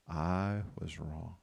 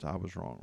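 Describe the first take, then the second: First: "I was wrong" very slow and low; slow, stretched recitation of "I was wrong"; drawn-out confession. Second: Said in the usual way. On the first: Shown as a demonstration. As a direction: lead a group through "I was wrong", word by word. Leads congregation saying it on count.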